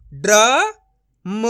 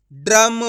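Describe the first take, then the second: First: ड्रम broken as "dra... ma", long pause, loud; syllable by syllable. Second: ड्रम joined as "dram", loud; blended whole word. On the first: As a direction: sound out ड्रम very slowly in two parts. (ड्रम को "ड्र... म" तोड़कर धीरे बोलें) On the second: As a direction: read ड्रम in one go without a break. (ड्रम को जोड़कर एक साथ बोलें) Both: Shown as a demonstration. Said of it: "direct मात्रा का उच्चारण करके पढ़ेंगे".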